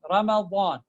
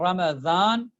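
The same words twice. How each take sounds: First: The middle consonant is heavy, between d and z. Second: The middle consonant sounds like a z. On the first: The speaker calls it right. "it is something in, in between these two" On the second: The speaker calls it wrong. "that is wrong"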